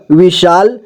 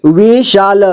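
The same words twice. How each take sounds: First: Said in the usual way. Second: विशाल as वि-शा-ल; syllable by syllable. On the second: Shown as a demonstration. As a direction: sound out विशाल in three parts. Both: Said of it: "एक ही बार में पढ़ेंगे".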